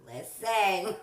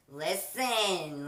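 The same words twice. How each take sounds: First: High, loud, laughing parrot "Listen"; bird copying voice. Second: Loud and firm "Listen"; firm call. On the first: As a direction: copy it like a mimicking bird. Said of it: "to hear her". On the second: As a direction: snap it like telling off a pet. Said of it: "I used to tell her". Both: Retold or imitated.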